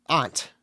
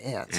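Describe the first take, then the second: First: "aunt" with a broad ah, like "ahnt". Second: "aunt" with a short flat A, like "ant". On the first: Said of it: "we say aunt". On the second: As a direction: say "aunt" just like the insect ant. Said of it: "they say aunt". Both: Shown as a demonstration.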